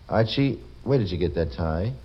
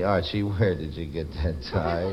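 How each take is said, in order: First: It sounds curious and questioning. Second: It sounds sad and mournful. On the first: "you say it inquiringly" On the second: "you say, sadly"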